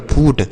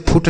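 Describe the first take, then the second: First: फूट with a long oo; correct long oo. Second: फुट with a short, quick u; wrong short u. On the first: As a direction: stretch the vowel of फूट. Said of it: "इसे हम पढ़ेंगे फूट". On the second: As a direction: cut the vowel of फुट short. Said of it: "इसे फुट नहीं पढ़ेंगे". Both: Shown as a demonstration.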